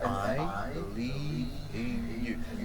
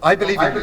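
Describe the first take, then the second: First: The phrase is said slowly and unhurried. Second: The phrase is said quickly and rushed. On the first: The listener can really feel it. The speaker calls it right. "Let it travel into their ear" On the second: It does not sound sincere. The speaker calls it wrong. "Don't rush it. No, ... it's not sincere"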